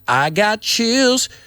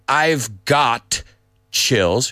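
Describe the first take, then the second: First: No v sound is heard before got. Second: A clear v sound is heard before got. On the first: "He says" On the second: "He doesn't say"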